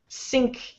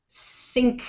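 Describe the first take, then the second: First: The word begins with a hissing S sound. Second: The same.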